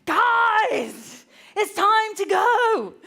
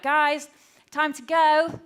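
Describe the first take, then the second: First: High, loud, drawn-out yell; exasperated shout. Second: Raised, higher calling-up voice; first call to the kids, measured. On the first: Mum yelling at children who won't come, exasperated shout. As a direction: holler it, patience gone. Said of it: "there's a moment where I was like". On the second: Mum calling the children to leave, controlled calling out. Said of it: "we needed to go". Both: Retold or imitated.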